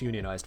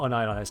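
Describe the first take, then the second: First: The word is split as union-ized. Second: The word is split as un-ionized. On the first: Organized into a union. "it's unionized first and foremost" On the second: Not ionized, as a chemist would mean. "it's not unionized to me"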